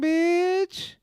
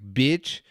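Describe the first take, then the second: First: It sounds warm and playful. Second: It sounds harsh and insulting. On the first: It is meant as friendly praise. "it's a term of endearment. It's all in how you say it" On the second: It is meant as an insult. "that's different than being like"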